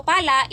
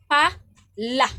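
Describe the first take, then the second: First: Said in the usual way. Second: "pala" split as pa, la, slow and loud; accented delivery. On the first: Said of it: "without original accent". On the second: Shown as a demonstration. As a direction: press on "pala" in two separate beats. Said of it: "na dyan kay pinadiin".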